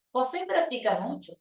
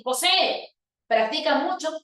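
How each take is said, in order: First: Said in the usual way. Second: José practica mucho as an order, José rising high; bossy imperative with José raised; command tune, José called out. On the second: Shown as a demonstration. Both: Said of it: "Mira cómo cambia la entonación".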